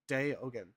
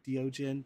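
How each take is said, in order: First: The name splits into two separate words. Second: The name runs together as one word. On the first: The speaker calls it right. "but it's Day Ogun. two different words" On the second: The speaker calls it wrong. "A lot of people will say Diogen"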